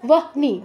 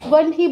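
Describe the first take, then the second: First: The h sound comes before the n. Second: The h sound comes after the n. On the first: The speaker calls it wrong. "হবে না" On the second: The speaker calls it right. "বলতে হবে"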